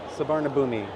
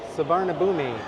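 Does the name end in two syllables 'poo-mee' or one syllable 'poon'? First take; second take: poo-mee; poo-mee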